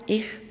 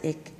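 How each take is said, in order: First: It is said in a Swabian dialect. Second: It is said in a Berlin dialect. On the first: "those from Schwaben" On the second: "The Berliners pronounce it"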